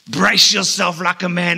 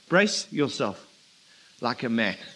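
First: The voice sounds stern and aggressive. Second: The voice sounds soft and gentle. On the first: God is telling Job to sit down and shut up. The speaker calls it wrong. "Was it stern? ... aggressive" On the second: God is kindly inviting Job to answer his questions. The speaker calls it right. "not sarcastic, gentle perhaps"

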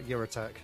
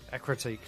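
First: The name starts with a 'your' sound. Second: The name starts with an 'eck' sound. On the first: The speaker calls it wrong. "not Eurotech. ... That's how I used to call it" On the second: The speaker calls it right. "I remembered how to pronounce it this time"

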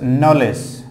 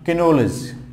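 First: The word starts with an 'n' sound and no 'k'. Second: The word starts with a sounded 'k' before the 'n'. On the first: The speaker calls it right. "That was knowledge, not Kinolis" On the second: The speaker calls it wrong. "not Kinolis"

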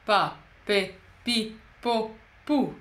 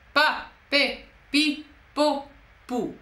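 First: It is said with a neutral larynx. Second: It is said with a swallowing, raised larynx.

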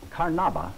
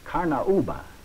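First: The word is said with an English pronunciation. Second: The word is said with a South American pronunciation.

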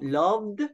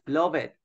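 First: The ending is a single final d sound. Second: The ending is sounded as an extra syllable. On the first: The speaker calls it right. "So loved" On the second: The speaker calls it wrong. "we don't say love it"

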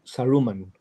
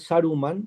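First: The stress is on the second-to-last syllable. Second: The stress is not on the second-to-last syllable. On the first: The speaker calls it wrong. "Todas llanas" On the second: The speaker calls it right. "en vez de Saruman"

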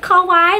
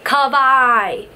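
First: It is pronounced like the word for 'cute'. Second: It matches neither the island nor 'cute'. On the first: The speaker calls it wrong. "Like Kawaii, like cute? No, not Kawaii" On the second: The speaker calls it right.

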